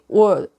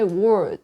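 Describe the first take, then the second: First: The final consonant sound is left off. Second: The final consonant sound is clearly pronounced. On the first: The speaker calls it wrong. "some people may say word" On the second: The speaker calls it right. "I say word"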